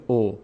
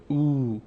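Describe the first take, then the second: First: "او" said as a short "o"; short "o" sound. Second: "او" drawn out as a long "oo"; lengthened "oo". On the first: Teacher shows what it no longer becomes, short "o". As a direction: say "او" wrongly as "o", without lengthening it to "oo". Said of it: "دیگه نمیشه او". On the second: Teacher shows the vowel pulled longer, long "oo". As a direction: stretch "او" a little into a pure "oo". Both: Shown as a demonstration.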